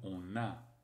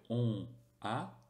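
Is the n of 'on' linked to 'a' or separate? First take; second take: linked; separate. First: The n sound links on into a. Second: The two words are said without a linking n. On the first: The speaker calls it right. "on va dire on a" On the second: The speaker calls it wrong. "On ne va pas dire on a"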